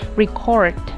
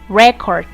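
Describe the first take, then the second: First: The stress is on the second syllable. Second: The stress is on the first syllable. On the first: It is used as a verb. "their stress changes to their second syllables" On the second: It is used as a noun. "pronounced making the stress in the first syllable"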